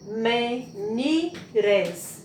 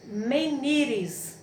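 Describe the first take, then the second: First: "menires" split into three beats: me, ni, res; syllable by syllable. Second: Said in the usual way. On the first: Shown as a demonstration. Teacher separating syllables for children, "menires" as me, ni, res. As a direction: pause between each syllable of "menires". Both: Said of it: "depois ela separou as sílabas".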